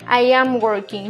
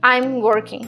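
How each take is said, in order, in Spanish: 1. El verbo se dice completo, como dos palabras. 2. El verbo se contrae en una sola sílaba rápida. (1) "la forma larga" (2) "Es más rápido"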